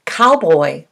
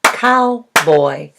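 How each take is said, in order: First: Said in the usual way. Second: Put-on "Cowboy" split in two, cow, boy; "Cowboy" in two separate beats; syllable by syllable. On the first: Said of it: "How many syllables do you hear". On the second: Shown as a demonstration. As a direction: clap out "Cowboy" with a gap between syllables. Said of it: "Clap it with me".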